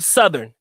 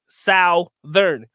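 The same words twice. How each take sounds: First: It is said with an American pronunciation. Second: It is said with a Filipino pronunciation.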